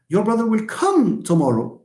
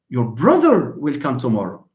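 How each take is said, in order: First: The stress falls on the word come. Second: The stress falls on the word brother. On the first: He will come rather than stay at home. "When you when you stress the word come" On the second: It is the brother, not a sister or cousin. "I stress the word brother"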